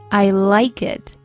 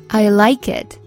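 No difference in how they are said.

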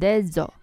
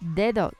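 First: The middle d sounds like a z. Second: The middle d sounds like a soft th. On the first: The speaker calls it wrong. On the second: The speaker calls it right.

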